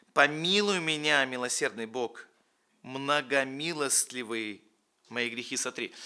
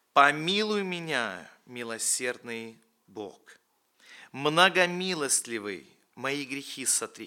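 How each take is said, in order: No difference in how they are said.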